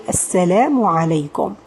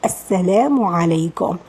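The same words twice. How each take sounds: First: The long vowel is held for only two counts. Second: The long vowel is held for only two counts.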